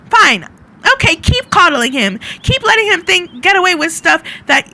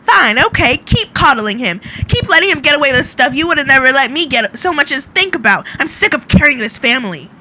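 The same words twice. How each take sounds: First: High, loud angry shout in character; flustered shouting. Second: Loud, exasperated rant in character; flustered shouting. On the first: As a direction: shout it back at family behind you. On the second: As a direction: shout it in one fed-up rush. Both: Acted. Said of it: "shouting behind her".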